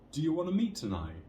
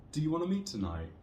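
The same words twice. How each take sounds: First: The pitch rises at the end. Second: The same.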